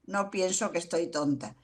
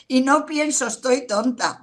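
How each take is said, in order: First: Quiet, calm correction; quiet denial. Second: Raised, emphatic take on the inner voice; higher, louder mock "Estoy tonta"; louder mock self-talk. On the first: Real, not acted. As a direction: settle it down gently. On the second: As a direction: say it up and out, as if scolding yourself.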